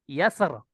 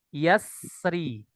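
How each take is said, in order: First: The word ends on the consonant r. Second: The final r is followed by a short i. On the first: "Ketika sukun" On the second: "ketika sempurna"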